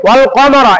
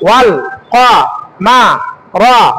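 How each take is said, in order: First: It is said smoothly as one word. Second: Each syllable is said separately with breaks.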